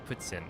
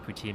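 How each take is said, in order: First: The T is followed by an S sound. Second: The T is plain, without an S sound. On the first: The speaker calls it right. "it should be like puts putsin" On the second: The speaker calls it wrong. "I say poutine wrong"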